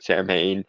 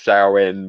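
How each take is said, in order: First: The name is said in an anglicized, spelled-out way. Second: The name is said with its Gaelic pronunciation. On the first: This is a common playful mispronunciation. The speaker calls it wrong. "somebody who calls it Samhain ... playful mispronunciation" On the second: This is the technically correct form. The speaker calls it right. "Technically, in like Gaelic pronunciation, it's Samhain"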